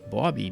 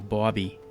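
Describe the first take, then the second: First: The name is said with a drawn 'aw' vowel. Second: The name is said in a plain accent. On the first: "B A W B Y. ... That's a Rhode Island thing" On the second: "they pronounce the name Bobby"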